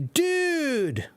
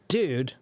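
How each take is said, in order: First: It is said in a delighted, welcoming tone. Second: It is said in a reproachful, accusing tone. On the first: The speaker is happy to see someone. "that means, oh, wow, it's good to see you" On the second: The speaker is asking what someone did wrong. "that means, what did you do?"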